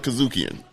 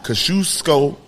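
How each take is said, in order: First: The name ends with an n sound. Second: The name ends without an n sound. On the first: The speaker calls it wrong. "I'm sorry for calling it Kazukian" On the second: The speaker calls it right. "That's how you say it"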